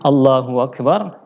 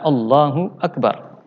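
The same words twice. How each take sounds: First: A w sound links the two words. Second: No w sound comes between the words. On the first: The speaker calls it wrong. "hanya saja dia mengatakan" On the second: The speaker calls it right. "Jadi yang benar adalah Allahu akbar"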